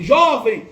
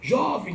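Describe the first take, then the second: First: Loud retold shout of jovem; shouting jovem at the wounded man. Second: Far-off voice. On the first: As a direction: call out loudly to someone fading. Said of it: "gritando assim". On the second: Retold or imitated. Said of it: "ouvindo a voz dela longe".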